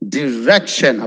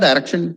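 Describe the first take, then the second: First: The first syllable sounds like 'dee'. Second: The first syllable sounds like 'dye'. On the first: The speaker calls it right. "ഡി എന്ന് പറഞ്ഞ് തുടങ്ങുക" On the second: The speaker calls it wrong. "Wrong"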